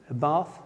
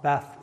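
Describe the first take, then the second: First: "bath" with a long ah, like barth; southern bath. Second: "Bath" with a short flat a, as in cat; northern bath. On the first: Checking the word with the congregation, long ah in bath. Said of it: "Vaughan's from my part of the world". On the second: Settling the word as his own region says it, short flat a. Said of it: "he says bath and grass and castle". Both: Shown as a demonstration.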